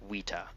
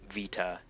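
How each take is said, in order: First: The word begins with a W sound. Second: The word begins with a V sound. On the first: "V's are pronounced as W's" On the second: "instead of like uh, I don't know, Vita"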